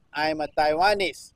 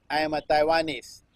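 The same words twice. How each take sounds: The two takes are said the same way.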